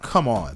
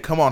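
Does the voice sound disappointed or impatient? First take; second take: disappointed; impatient. First: It sounds let down and disappointed. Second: It sounds urgent and impatient. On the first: The speaker is let down by the listener. "you're disappointed" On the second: The listener needs to move faster. "hurry up"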